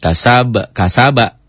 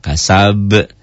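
First: The word ends with a full final vowel. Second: The final b is stopped with an echoing bounce. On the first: The reading continues without stopping. "kol-kolah? Bukan" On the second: The reader stops on this word. "Kapan jadi kol-kolah?"

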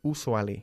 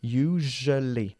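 First: The word starts without a clear 'you' sound. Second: The word starts with a clear 'you' sound. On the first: The speaker calls it wrong. "Muchísimos españoles tienden a decir usually. Y no es así" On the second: The speaker calls it right. "Es you, como you, tú"

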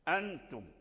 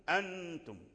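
Both takes have the same delivery.

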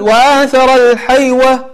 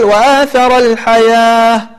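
First: The last word is said with a w sound. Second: The last word is said with a long a. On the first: The speaker calls it wrong. "تلاحظ أنك لا تقول وآثر الحيوة" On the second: The speaker calls it right. "ولكن تقول وآثر الحياة"

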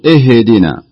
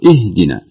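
First: The h sound is given an added bounce. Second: The h sound is soft and still. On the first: The speaker calls it wrong. "ما يصلح نقول اهدنا" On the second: The speaker calls it right. "نقول اهدنا بكل بساطة وكل هدوء"

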